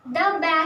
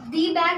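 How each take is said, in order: First: The word 'the' is said with a short 'thuh'. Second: The word 'the' is said with a long 'thee'. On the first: The speaker calls it right. "द bag होता है" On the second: The speaker calls it wrong. "दी bag नहीं होता"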